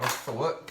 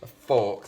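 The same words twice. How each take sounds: First: "fork" in his natural regional accent; casual local-accent "fork"; own accent. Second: "A fork" said again carefully in a more neutral accent, a bit louder; corrected pronunciation. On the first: Real, not acted. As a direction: let "a fork" slip out in his home accent. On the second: Shown as a demonstration. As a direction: correct "A fork" deliberately, standard-sounding. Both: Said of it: "Sorry for saying that in my accent".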